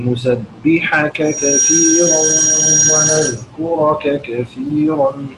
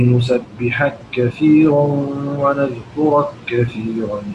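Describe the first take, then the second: First: The two meeting consonants are pronounced separately. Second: The two meeting consonants merge into one. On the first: "ثم نعطف لإمام روح بالإظهار" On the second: "هذه المواضع ما زلنا مع الإمام رويس إدغامها"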